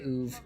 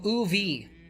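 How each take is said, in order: First: The name is said as one short syllable. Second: The name is spelled out as separate letters. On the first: "I'm just going to say Uv" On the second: "he was actually saying the letters O O V"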